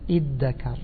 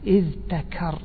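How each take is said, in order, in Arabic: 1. يُسمع صوت d واحد مشدّد. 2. يُسمع صوت dh ثم صوت t. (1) "فأضغموا الذال في الإيه" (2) "يعني هذا أصلها أن تقول إذ ذكر، يعني افتعل من الذكر"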